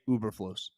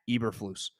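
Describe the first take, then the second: First: The name starts with an 'oo' sound. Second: The name starts with an 'eh' sound. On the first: The speaker calls it wrong. "I've been mispronouncing your coach's name" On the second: The speaker calls it right. "His name is Matt Eberflus"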